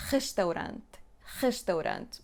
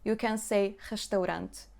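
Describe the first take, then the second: First: "restaurant" with a hard, scraped ch for the R; harsh scraped R; forced back R. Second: "restaurant" with a light, easy h for the R; gentle back R; soft back R. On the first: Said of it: "or you can force it and say". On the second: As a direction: say "restaurant" with the R barely breathed. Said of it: "you do not even need to force it so much". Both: Shown as a demonstration.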